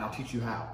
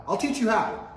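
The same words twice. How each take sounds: First: Said in the usual way. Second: Higher, louder second take; louder repeat. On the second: Shown as a demonstration. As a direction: hammer the line home louder.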